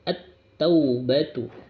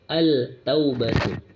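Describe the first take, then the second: First: The L merges into a doubled T sound. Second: The L is pronounced clearly before the T. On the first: The speaker calls it right. "At masuk huruf ta-nya" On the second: The speaker calls it wrong. "Kalau membacanya al maka salah"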